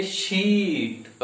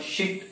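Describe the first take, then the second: First: शीट with the ee drawn out very long; teacher demonstrates शीट, vowel held long. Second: शिट with a short clipped i; short sound in शिट; short vowel. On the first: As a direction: stretch the ee in शीट slowly. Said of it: "long sound में देखते हैं". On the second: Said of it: "short sound है". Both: Shown as a demonstration.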